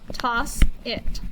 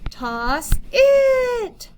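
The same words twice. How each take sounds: First: It is said in a plain, normal tone. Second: It is said in an excited tone.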